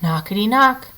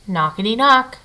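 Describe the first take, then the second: No difference in how they are said.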